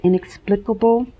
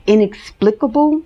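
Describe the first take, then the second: First: Inexplicable said again, second syllable as "ex", settled; corrected pronunciation. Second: Inexplicable tried with a rising, questioning tune; unsure pronunciation. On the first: After checking the word, inexplicable said again with confidence. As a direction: repeat inexplicable more firmly with "in-EX". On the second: Checking a hard word for viewers, inexplicable said uncertainly. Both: Shown as a demonstration. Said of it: "I think that's how you pronounce it".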